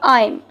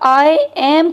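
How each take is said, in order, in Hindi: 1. यह एक संकुचित अक्षर के रूप में बोला जाता है। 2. यह दो पूरे अलग शब्दों के रूप में बोला जाता है। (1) "शॉर्ट कर लिया" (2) "आई एम को हमने शॉर्ट कर लिया"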